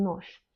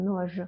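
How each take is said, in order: First: "нож" ending in sh, "nosh"; devoiced final consonant. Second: "нож" ending in voiced zh, "nozh"; wrong voiced ending. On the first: Teacher showing how it is pronounced, "нож" as nosh. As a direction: end "нож" on a voiceless hush. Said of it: "On prononce comme нож". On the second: Teacher showing what not to say, "нож" as nozh. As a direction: buzz the final zh of "нож". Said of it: "on ne prononce pas comme нож". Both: Shown as a demonstration.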